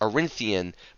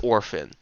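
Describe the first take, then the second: First: The name is said with three syllables. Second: The name is cut short to two syllables. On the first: The speaker calls it wrong. "some people pronounce it as Arinthian" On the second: The speaker calls it right. "the correct pronunciation I have confirmed is Orphan"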